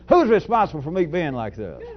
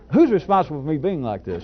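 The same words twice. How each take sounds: First: It is said in a loud, aggressive, theatrical tone. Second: It is said in a gentle, pleasant, light tone. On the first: The speaker calls it wrong. "as aggressive as I was doing the theatrics" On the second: The speaker calls it right. "Try to try to say it pleasantly"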